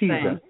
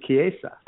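First: The word begins with a 'ch' sound. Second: The word begins with a 'k' sound. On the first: The speaker calls it wrong. "So people think, well, that's chiesa" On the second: The speaker calls it right. "That's how you pronounce it"

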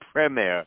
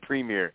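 First: It is said with a British pronunciation. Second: It is said with an American pronunciation. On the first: The speaker really follows the league. The speaker calls it right. "when you start saying Premier" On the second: The speaker is a casual viewer. The speaker calls it wrong. "instead of Premier"

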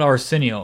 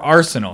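First: The word starts like the name Arsenio. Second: The word is said in the usual way. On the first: The speaker calls it wrong. "not arsenal, like Arsenio Hall" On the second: The speaker calls it right. "Or arsenal"

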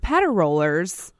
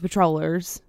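First: It is split into four syllables, patter rollers. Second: It is said as three syllables, patrollers. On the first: "So the patter rollers" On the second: "does it sound like it when I say it?"

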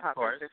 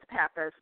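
First: The name is said with a Greek-style pronunciation. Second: The name is said with a Chicago-style pronunciation. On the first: "if you want to be real Greek" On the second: "that's because I say it more Chicago-y"

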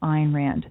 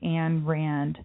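First: The first name rhymes with 'mine'. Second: The first name does not rhyme with 'mine'. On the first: The speaker calls it right. "instead of Ayn Rand" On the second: The speaker calls it wrong. "You hear Rush Limbaugh sometimes say Ayn Rand"

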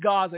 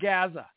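First: It is said with the standard pronunciation. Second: It is said the way Southern politicians say it. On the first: The speaker calls it right. "But it is Gaza" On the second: The speaker calls it wrong. "It's not Gaza"

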